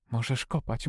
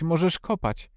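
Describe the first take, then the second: First: Softly murmured self-talk; talking to oneself. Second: "możesz kopać" repeated with higher pitch; insistent self-talk. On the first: Mary urging Colin on to herself, softly. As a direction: say it softly, as if to yourself. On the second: Mary urging Colin to dig, higher and insistent. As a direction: lift "możesz kopać" higher, urging under your breath. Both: A narrator's reading. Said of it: "mówiła Mary do siebie".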